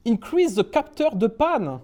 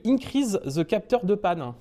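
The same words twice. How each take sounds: First: Slow, higher, put-on English accent; exaggerated English accent on French. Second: Said in the usual way. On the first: Shown as a demonstration. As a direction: say the French words as if they were English. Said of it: "j'essaye de prendre l'accent anglais". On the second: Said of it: "ne pas prendre d'accent anglais".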